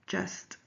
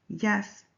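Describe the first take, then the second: First: Said in the usual way. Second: "yes" for just, opening on a y; Spanish-accented j. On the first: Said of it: "instead of". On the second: Shown as a demonstration. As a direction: say "yes" with y replacing the j sound. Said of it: "He also says yes instead of just".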